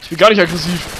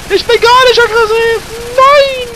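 First: Said in the usual way. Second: Loud, high laughing yell; shouting. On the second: Real, not acted. Repeats it yelling, laughing.

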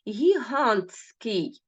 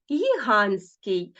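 First: Гігантський slowly, syllable by syllable, following the spelling; spelling pronunciation. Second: Гігантський said as гіганський, the Т dropped; simplified pronunciation. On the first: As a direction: say гігантський drawn out letter for letter, with Т before С. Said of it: "зверніть увагу Т і С". (повільна вимова «гігантський» за написанням) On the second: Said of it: "випадає ось цей звук". (вимова «гігантський» без Т, як «гіганський») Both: Shown as a demonstration.

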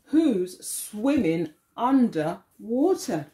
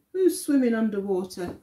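First: Slow, drawn-out question; slow read-aloud. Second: Fast, brisk repeat; quick repeat. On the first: Teacher reading to children, slow and drawn out. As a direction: stretch the line out for the class. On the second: Teacher repeating the line to children, quick. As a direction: rattle it off again. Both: Acted.

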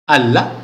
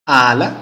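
No difference in how they are said.

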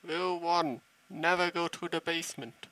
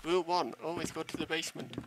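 First: Never said firm and loud; stern warning on never; stress on never. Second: Always said fast and quick; playful quick always; stress on always. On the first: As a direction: lay down the rule, punching never. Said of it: "horror rule stated". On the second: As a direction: flip the rule with a quick always. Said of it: "reversed rule". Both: Shown as a demonstration.

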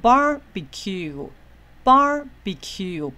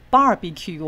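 First: Barbecue 的 bar 念高拉长，后面降低; 慢慢念 barbecue，开头又高又响; 第一音节重音. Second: Barbecue 的 bar 只念重、不往上提; 示范错误读法：barbecue 开头低沉用力、念得较快; 错误的念重. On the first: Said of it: "这个是重音节往上高". (慢速示范 barbecue，前高后低) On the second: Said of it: "不是barbecue哦". (把 barbecue 的 bar 往下砸着念) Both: Shown as a demonstration.

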